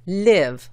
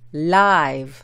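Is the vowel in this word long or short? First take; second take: short; long. First: The vowel is short, as in 'give'. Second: The vowel is long, as in 'wide'. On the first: It means to reside somewhere. "la I es corta, no larga" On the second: It means being alive. "la I es larga y se pronuncia live"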